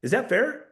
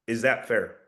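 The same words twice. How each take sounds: First: High, rising "Is that fair?"; asking permission, pitch raised; upward tonality. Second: Low, falling "Is that fair?"; certain, pitch lowered at the end; downward tonality. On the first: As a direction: swing "fair" up as a real question. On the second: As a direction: drop "fair" down like a statement. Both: Shown as a demonstration. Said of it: "when you're using a downward tonality".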